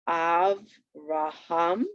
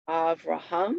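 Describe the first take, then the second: First: AVRAHAM very slow, split av-ra-ham, rising last; syllable by syllable. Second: Said in the usual way. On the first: Shown as a demonstration. Teacher showing where the accent falls, "Avraham" slowly broken up. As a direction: stretch "Avraham" into three separate syllables. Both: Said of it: "You could hear it naturally there".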